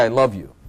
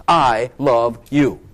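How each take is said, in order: First: Said in the usual way. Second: Slow sincere I love you; slow, tender declaration. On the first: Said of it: "Someone has to say". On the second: Shown as a demonstration. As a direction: stretch out I love you slowly and tenderly, leaning on I. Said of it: "so that you personally know".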